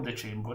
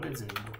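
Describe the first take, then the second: First: The second consonant sounds like 'ch'. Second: The second consonant sounds like 'z'. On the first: The speaker calls it wrong. "non decembro" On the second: The speaker calls it right. "Dezembro, non decembro"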